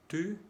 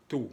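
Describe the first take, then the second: First: TU with tight front u, pitched up; French u sound. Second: TÚ said as tout, back oo; French ou sound. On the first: Teacher contrasting two vowels, fronted French u. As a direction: say TU with rounded lips, tongue forward. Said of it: "los sonidos U". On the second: Teacher contrasting two vowels, back oo. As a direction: say TÚ like Spanish tu. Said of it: "y el sonido U". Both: Shown as a demonstration.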